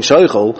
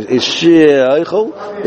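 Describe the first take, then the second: First: Said in the usual way. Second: Is she oichel, the "she" stretched slow and separate from oichel; elongated shin. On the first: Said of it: "it sounds like he's just saying". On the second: Shown as a demonstration. Teacher contrasting the elongated "she" with quick sheichel. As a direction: pull the "she" long before oichel. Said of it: "the elongated shin".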